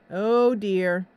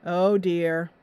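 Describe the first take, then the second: No difference in how they are said.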